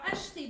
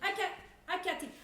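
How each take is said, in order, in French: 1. Il commence par un son 'sh' doux. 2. Il a un son 'k' dur à la place.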